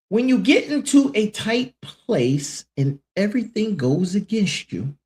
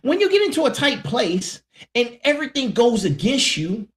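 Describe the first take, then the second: First: It is read at a slower pace. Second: It is read at a quicker pace.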